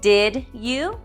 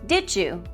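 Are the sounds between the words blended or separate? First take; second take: separate; blended. First: The sounds between the words stay separate. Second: The sounds between the words blend into one.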